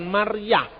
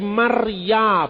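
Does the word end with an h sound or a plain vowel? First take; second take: h sound; plain vowel. First: The word ends with an audible h sound. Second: The word ends in a plain vowel. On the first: The speaker calls it wrong. "Akhirannya bukan huruf H" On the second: The speaker calls it right. "Yang ada kata Maria, bukan Maryah"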